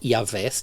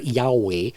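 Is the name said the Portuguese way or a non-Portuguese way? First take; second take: Portuguese; non-Portuguese. First: The name is said the Portuguese way. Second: The name is said a non-Portuguese way. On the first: "ou como se diz aí em português" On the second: "se eu falar Yahweh, é como eu digo"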